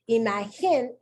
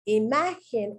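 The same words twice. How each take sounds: First: The stress falls on a different syllable. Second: The stress falls on the next-to-last syllable. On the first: The speaker calls it wrong. "is the incorrect pronunciation" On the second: The speaker calls it right. "is the correct pronunciation"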